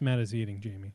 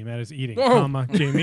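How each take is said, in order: First: The words run on without a pause before the name. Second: There is a pause before the final name. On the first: The named person is the one being eaten. The speaker calls it wrong. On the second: The named person is being spoken to. The speaker calls it right.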